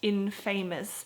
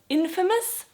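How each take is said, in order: First: The ending sounds like the word 'famous'. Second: The ending does not sound like 'famous'. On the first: The speaker calls it wrong. "not infamous" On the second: The speaker calls it right. "it's actually pronounced infamous"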